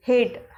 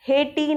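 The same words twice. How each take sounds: First: हेट said as one syllable "hate", final e silent; teacher models हेट without the extra vowel; correct pronunciation. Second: हेटी said "hay-tee" with a sounded final vowel; mock-wrong हेटी showing the silent e voiced; wrong pronunciation. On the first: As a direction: stop हेट cleanly on the t. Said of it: "हम उस vowel को sound नहीं करते". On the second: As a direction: add a clear "ee" after the t in हेटी. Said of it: "हेटी नहीं बोलते". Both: Shown as a demonstration.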